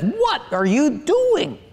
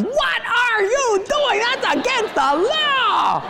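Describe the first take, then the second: First: Higher, slow, mock-stern wife voice; wife's scolding question. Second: Much higher, slow, hammed-up shriek of the wife; mock the panicked wife as she yells; wife yelling. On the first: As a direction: imitate the wife asking sharply. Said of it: "she says". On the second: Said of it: "She's just yelling".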